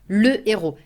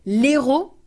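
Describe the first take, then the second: First: The article keeps its vowel before the noun. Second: The article's vowel is dropped and joined on. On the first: The speaker calls it right. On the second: The speaker calls it wrong.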